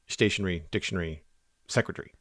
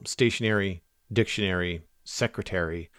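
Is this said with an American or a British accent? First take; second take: British; American. First: It is said with a British accent. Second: It is said with an American accent.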